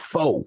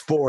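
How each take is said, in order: First: Four is said in a Texan accent. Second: Four is said in a standard accent.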